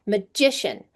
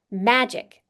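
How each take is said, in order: First: "Magician" with GI stressed; second-syllable stress. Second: "Magic" with MA stressed; first-syllable stress. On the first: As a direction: say "Magician" as ma-GI-cian. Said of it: "the stress is in the second". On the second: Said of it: "the stress is in the first syllable". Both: Shown as a demonstration.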